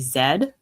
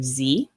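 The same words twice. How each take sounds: First: The letter is said the way other places say it. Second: The letter is said the usual US way. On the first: "some places will say Z" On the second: "We will typically just say Z"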